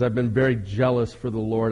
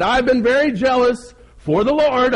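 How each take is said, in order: First: Said in the usual way. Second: High, loud, hammed-up complaint; whining. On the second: Elijah protests his zeal to God, whining loudly. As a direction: whine it loudly to God, pitched way up. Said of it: "and he whined".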